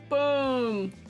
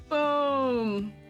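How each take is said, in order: The two takes are said the same way.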